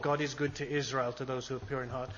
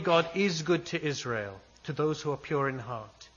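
First: It sounds doubtful and dismissive. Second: It sounds firm and full of conviction. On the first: The speaker does not really believe it. The speaker calls it wrong. "He doesn't start saying, "Yeah, sure" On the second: The speaker is certain it is true. The speaker calls it right. "he's saying this with conviction"

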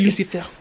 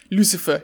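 First: It is said in a French accent. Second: It is said in a plain English accent.

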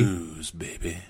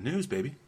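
First: The phrase is said slowly and sultrily. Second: The phrase is said at a normal pace.

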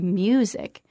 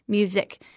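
First: One syllable is clearly stronger than the other. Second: Both syllables carry equal stress. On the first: The speaker calls it right. "We say music" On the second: The speaker calls it wrong. "they were giving equal emphasis to both syllables"

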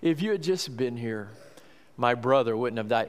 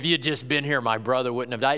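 First: It is said in a sad, grieving tone. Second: It is said in a sharp, reproachful tone. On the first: She is mourning and trusts in his power. "My tendency is to think that's what it is, but maybe it was a rebuke" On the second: She is blaming him for not coming sooner. "maybe it was a rebuke. Maybe she did say"

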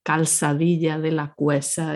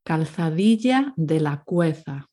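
First: The z sounds are pronounced like s. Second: The z sounds are pronounced like th.

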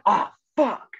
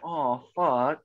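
First: It sounds unsympathetic. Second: It sounds sympathetic.

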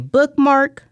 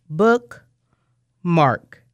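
First: The word is said smoothly as one unit. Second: The word is split in two with a break. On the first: "say bookmark" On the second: "and we segment it to bookmark"

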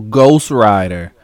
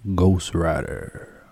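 First: It is said in an ordinary speaking voice. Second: It is said in a deep, lowered voice.

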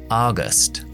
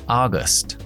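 Both takes have the same delivery.

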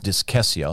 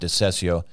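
First: The middle consonant is a K sound. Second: The middle consonant is soft, not a K. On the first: The speaker calls it right. "has like a K sound" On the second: The speaker calls it wrong. "I think I said it was pronounced discessio"

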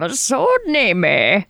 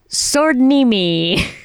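First: It is said in an old man's voice. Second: It is said in a normal voice.

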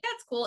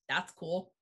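First: It sounds friendly and sincere. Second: It sounds cold and hostile.

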